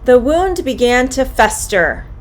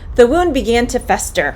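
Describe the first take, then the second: First: The sentence is said at a medium pace. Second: The sentence is said at a fast pace. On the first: "a bit more quickly" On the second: "a bit faster"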